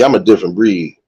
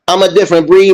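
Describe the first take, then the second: First: It is said in his ordinary speaking voice. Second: It is said in a special, showy put-on voice.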